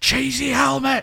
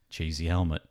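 First: It is shouted very loudly. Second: It is said a bit louder.

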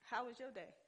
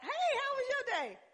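First: It is said in a cold, businesslike way. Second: It is said in a warm, friendly way.

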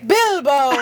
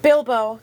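First: It is said in a Gandalf impression voice. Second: It is said in his normal reading voice.

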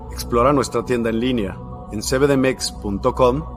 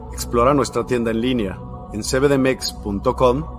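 Both takes have the same delivery.

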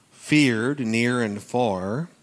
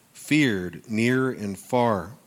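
Both takes have the same delivery.

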